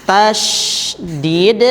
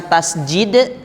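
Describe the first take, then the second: First: Slow "Tasydid" with a clear "sy", not "j"; slow careful tasydid. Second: "tasjid" with a hard "j" in place of "sy"; wrong tasjid. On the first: Teacher correcting the class, slow careful "Tasydid". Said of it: "bukan tasjid ya". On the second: Teacher showing the class the wrong "tasjid". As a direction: say "tasjid" as the common mistake. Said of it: "bukan tasjid". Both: Shown as a demonstration.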